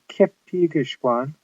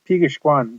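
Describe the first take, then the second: First: The k sound is pronounced at the start. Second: The k sound is dropped at the start. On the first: "you might think it would be" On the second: "often it just sounds like Pigishwan. The K almost disappears"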